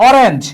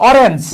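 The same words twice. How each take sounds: No difference in how they are said.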